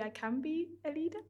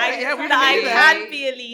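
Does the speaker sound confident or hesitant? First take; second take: hesitant; confident. First: It is said hesitantly, without confidence. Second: It is said firmly, with confidence. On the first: The speaker is unsure of the claim. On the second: The speaker firmly believes the claim.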